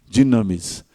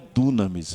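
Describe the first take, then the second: First: The first vowel is an 'ee' sound. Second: The first vowel is an 'oo' sound. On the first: The speaker calls it right. "o Y você não fala com U, você fala com I" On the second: The speaker calls it wrong. "não é dunamis"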